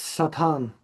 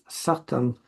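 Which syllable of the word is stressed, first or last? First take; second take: last; first. First: The stress is on the last syllable. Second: The stress is on the first syllable. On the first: This is the original Hebrew form. "in Hebrew it's Satan with the stress at the end" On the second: This is the later English form. "in English, when the stress shifted, it becomes Satan"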